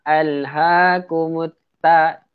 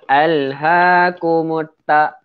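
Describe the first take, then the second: Both takes have the same delivery.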